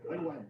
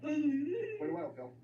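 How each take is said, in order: First: Said in the usual way. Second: Mocking slow drawl. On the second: Comedian to a mumbling audience member, slow mocking drawl. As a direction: drag out "Pretty well" very slowly and a bit higher.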